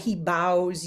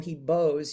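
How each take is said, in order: First: The word 'bows' rhymes with 'cows'. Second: The word 'bows' rhymes with 'goes'. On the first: He bends forward at the waist. The speaker calls it wrong. "But I read it as bows" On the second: He plays with a violin bow. The speaker calls it right. "like a violin"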